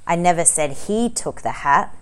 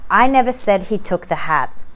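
First: The word 'took' is stressed. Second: The word 'I' is stressed.

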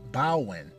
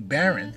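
First: The middle consonant is a W sound. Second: The middle consonant is an R sound. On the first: "Bawen with a W" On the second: "as it's spelled like B-A-R-O-N"

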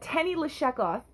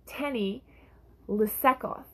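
First: The second word has a 'sh' sound. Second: The second word has an 's' sound. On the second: The speaker is from Samaria.

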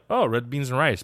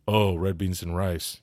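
First: It sounds like pleased, pleasant recognition. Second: It sounds disgusted and put off.

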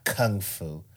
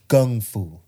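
First: The first word begins with a K sound. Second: The first word begins with a G sound. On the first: The speaker calls it wrong. "not Kung Fu" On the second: The speaker calls it right. "It's Kung Fu, ... Like Kung, like a G"

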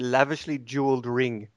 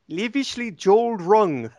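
First: It is said in the speaker's usual accent. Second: It is said in a New Zealand accent.

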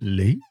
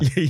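First: The name is said with a rising pitch. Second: The name is said on a low pitch. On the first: "It's a question" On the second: "you have to say it with the lower"

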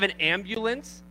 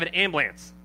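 First: The phrase is said in a standard accent. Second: The phrase is said in a Baltimore accent. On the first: "We don't have an ambulance" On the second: "We have an ambulance. That's what we have"

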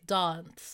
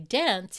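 First: It is said with a South Australian vowel. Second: It is said with a Sydney/Melbourne vowel.

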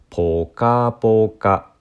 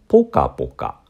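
First: The pitch starts low, then stays high. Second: The pitch starts high, then stays low. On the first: It describes pleasant warmth. "前者はポカポカ、て、こうこうこうというね、音になる" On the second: It describes repeated hitting. "後者はポカポカ、こうてててという音になります"

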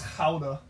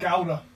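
First: It starts with a throaty, guttural G sound. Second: It starts with a hard English G sound. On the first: The speaker calls it right. "Because it's Dutch, it's Gouda" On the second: The speaker calls it wrong. "It's not Gouda"

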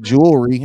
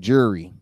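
First: The word is said in full, as jew-el-ry. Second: The word is reduced, sounding like jury. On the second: "I say jury"

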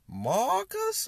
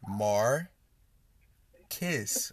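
First: The R is dropped and the vowel is dragged out. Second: The R is pronounced and the ending sounds like kiss. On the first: The speaker calls it wrong. "They completely take the R out of my name and just drag it" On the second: The speaker calls it right. "bring it back. Let's bring it in"

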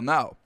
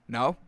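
First: The voice falls at the end. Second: The voice rises at the end.

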